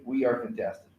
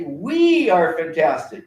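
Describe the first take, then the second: First: Softer, lower reply of the class; mild echo of the group answering; quieter echo. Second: Slow, loud chant with stress on We; rally call. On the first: Class answering the teacher, a softer echo. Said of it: "So then they say". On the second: Teacher leading pupils in the rally call, slow and loud. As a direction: call it out slowly to the room. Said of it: "I want everyone to say". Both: Shown as a demonstration.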